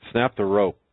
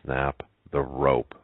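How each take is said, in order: First: "Snap the rope" higher, louder and quick; insistent, raised-pitch order on "Snap the rope"; emphatic. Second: "Snap the rope" slow, word by word; deliberate pauses between each word of "Snap the rope"; emphatic. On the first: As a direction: cut in with a forceful "Snap the rope". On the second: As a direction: spell out "Snap the rope" as a firm, measured order. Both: Acted. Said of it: "she said emphatically".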